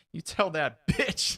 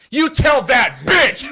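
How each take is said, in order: First: Slow, higher-pitched retort; retold angry retort. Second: Slow, very loud high-pitched yell; full-volume hammed-up relay of an insult; mock furious shout. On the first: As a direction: draw out the insult, stopping short of a shout. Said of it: "He's like". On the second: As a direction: bellow each word as the irate customer. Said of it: "this is what he said".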